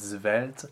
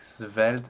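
First: It begins with a fully voiced Z. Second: It begins with a clear voiceless S. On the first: "Some singers use a very frank Z sound" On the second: "some singers use a really frank S sound"

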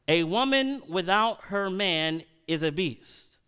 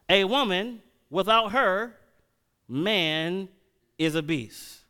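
First: It runs on with no pause after 'her'. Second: There is a pause after 'her'.

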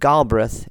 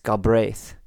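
First: The stress is on the first syllable. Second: The stress is on the second syllable. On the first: The speaker calls it wrong. "is not Galbraith" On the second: The speaker calls it right. "The emphasis on the second syllable"

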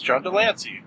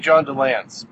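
First: The surname ends with a final 'ee' sound. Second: The surname ends without a final 'ee' sound. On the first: The speaker calls it right. "but it's John DeLancey" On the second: The speaker calls it wrong. "I always want to say John DeLance"

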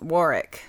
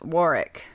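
First: The name is said with a British pronunciation. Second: The same.

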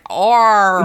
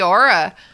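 First: The word ends with a strong R sound. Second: The word ends without any R sound. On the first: The speaker calls it wrong. "I always say like" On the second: The speaker calls it right. "they wouldn't pronounce that R ... it's supposed to be aura"

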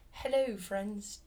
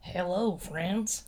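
First: It is said in a put-on British accent. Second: It is said in a plain American accent.

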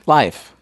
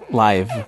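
First: The word ends with an F sound. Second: The word ends with a V sound. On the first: The speaker calls it wrong. "it sounds like you're saying life" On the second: The speaker calls it right. "Yeah, there you go"

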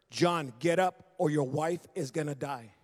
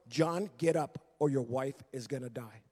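First: It is said in a sterner tone. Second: It is said in a less stern tone.

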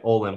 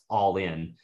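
First: The name begins with an 'oh' sound. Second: The name begins with an 'aw' sound. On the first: The speaker calls it wrong. "almost sounds like Olin" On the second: The speaker calls it right. "it's actually pronounced all in"

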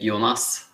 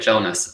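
First: The name is said with a Norwegian pronunciation. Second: The name is said with an English pronunciation. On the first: This is how Norwegians say it. "when I speak to Norwegians, they say Jonas" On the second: This is how English people say it. "When I speak to English people, they say Jonas"

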